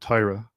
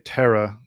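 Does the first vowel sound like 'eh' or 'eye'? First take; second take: eye; eh. First: The first vowel sounds like 'eye'. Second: The first vowel sounds like 'eh'. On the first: "as opposed to" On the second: "my Hebrew is more Litvish, and so I would say Terra"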